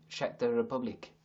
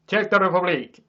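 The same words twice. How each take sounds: First: Said in the usual way. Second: Loud, high, hammed-up Czech accent; mock Czech accent. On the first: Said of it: "what accent is Czech". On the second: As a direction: shout it in a put-on Czech accent. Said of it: "I wanna do that, and I don't know why".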